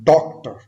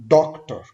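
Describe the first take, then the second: No difference in how they are said.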